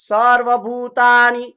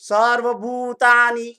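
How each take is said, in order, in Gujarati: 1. 'bhu' માંનો સ્વર લાંબો છે અને ખેંચીને બોલાય છે. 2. 'bhu' માંનો સ્વર લાંબો છે અને ખેંચીને બોલાય છે.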